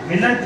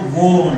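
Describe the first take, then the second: First: The contraction keeps the vowel and L: willnt. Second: The contraction changes the vowel to O: wont. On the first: The speaker calls it wrong. "विलंट नाही" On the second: The speaker calls it right. "वोंट म्हणायचं"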